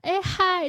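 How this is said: The greeting sounds bright, open and sociable.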